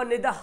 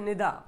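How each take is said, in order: First: निदा as "nidah", final h breathed; spelling pronunciation. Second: निदा ending in a plain long aa; usual spoken form. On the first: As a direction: sound an h at the end of निदा. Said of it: "लिखा हुआ". (निदा को "निदह" पढ़ें) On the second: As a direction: leave the h silent in निदा. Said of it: "बोलते हैं". (निदा का अंत अलिफ जैसा) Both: Shown as a demonstration.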